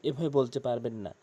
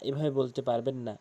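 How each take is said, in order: The two takes are said the same way.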